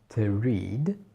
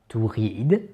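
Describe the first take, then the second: First: The vowel in read is long. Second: The vowel in read is short. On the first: The speaker calls it right. "mais to read. D'accord? Il est long" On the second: The speaker calls it wrong. "ne pas"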